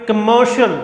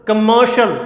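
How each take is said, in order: The two takes are said the same way.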